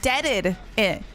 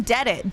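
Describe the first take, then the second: First: "Deaded it" with the extra -ed syllable. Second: "dead it" with a single d-sound ending DEAD. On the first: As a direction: sound out DEAD-ed it in three syllables. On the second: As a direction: say "dead it" as two syllables. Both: Shown as a demonstration. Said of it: "Not even "dead it." Deaded it".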